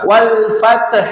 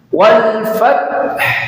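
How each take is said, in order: First: An e vowel is inserted after the t sound. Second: The t and h are said with no vowel between. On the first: The speaker calls it wrong. "Kalau wal fath, taknya dikasih harokat imalah, miring-miring. Kasih harokat e" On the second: The speaker calls it right. "taknya disukunkan, haknya disukunkan"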